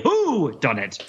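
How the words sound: The stress is on "who".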